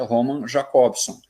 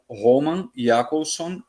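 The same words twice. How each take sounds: First: The name is said with a Portuguese pronunciation. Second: The name is said with a Russian pronunciation.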